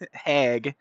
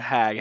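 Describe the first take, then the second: First: The vowel has a Canadian-sounding quality. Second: The vowel has a standard, non-Canadian quality. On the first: "It's like a little Canadian accent in there" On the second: "instead of"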